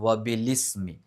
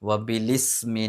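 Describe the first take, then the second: Both takes have the same delivery.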